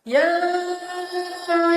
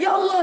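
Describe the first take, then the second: First: It is said softly with deep feeling. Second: It is said as a startled exclamation.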